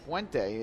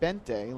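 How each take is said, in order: First: The U is sounded after the B. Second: The U is silent after the B. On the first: The speaker calls it wrong. "you would think the pronunciation is Buente" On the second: The speaker calls it right. "like the U wasn't there"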